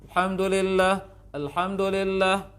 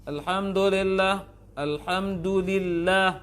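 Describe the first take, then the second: Both takes have the same delivery.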